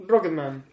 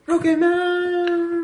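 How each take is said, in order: First: Said in the usual way. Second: Stretched out, much higher pitch; drawn-out high. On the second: Shown as a demonstration. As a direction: sing the title slowly up high. Repeats title drawn out.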